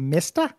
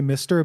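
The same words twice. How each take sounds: First: It is said in a New York accent. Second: It is said in a standard accent. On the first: "but instead say Mister" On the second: "don't know how to say Mister"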